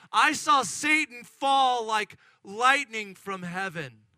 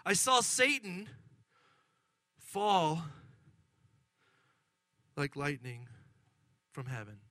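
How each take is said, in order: First: Loud, slow proclamation; forceful pronouncement. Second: Grave pronouncement. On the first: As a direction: proclaim it firmly, word by word. Jesus' answer repeated over the excitement. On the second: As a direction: let it fall solemnly to a hush. Jesus' sobering answer, first take. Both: Acted.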